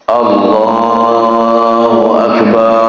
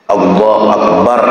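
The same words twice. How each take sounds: First: The vowel in 'bar' is stretched a little longer. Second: The vowel in 'bar' is short and direct. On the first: The speaker calls it wrong. "terpanjangnya sedikit, tertambah alif mat di situ" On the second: The speaker calls it right. "langsung bar"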